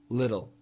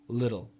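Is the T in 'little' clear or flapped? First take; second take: flapped; flapped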